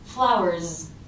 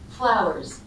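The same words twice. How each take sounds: First: The word ends in a strong Z sound. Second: The word ends in a weak, light S sound. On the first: The speaker calls it wrong. "But it also doesn't have a strong Z" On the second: The speaker calls it right. "A really weak, light S"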